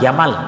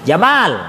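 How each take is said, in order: First: The vowel in the second syllable is short. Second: The vowel in the second syllable is long. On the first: A camel. "onta itu" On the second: A handsome person. "malnya panjangin"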